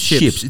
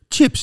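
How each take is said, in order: First: The word begins with an 'sh' sound. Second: The word begins with a 'tsh' sound. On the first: The speaker calls it wrong. "Je schrijft niet SJIPS" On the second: The speaker calls it right. "Chips, niet chips"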